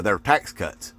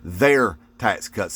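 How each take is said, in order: First: Said in the usual way. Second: "Their" drawn out slowly, then a deliberate "tax cuts"; stress on THEIR. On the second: Shown as a demonstration. Emphasizing to Trump voters who benefits, stressed THEIR. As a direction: lean slowly on "Their" to drive it home. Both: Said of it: "Let me emphasize that".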